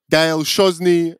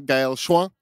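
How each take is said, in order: First: "Gaël Chosny" said the English way, hard "Chosny"; "Gaël Chosny" slowly, English sounds, no French nasal; anglicized name. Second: "Gaël Chouin" in French, nasal "Chouin" like shwa; "Gaël Chouin" said the French way, rising end; French pronunciation. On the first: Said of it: "or, you know, in French". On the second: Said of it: "in French". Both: Shown as a demonstration.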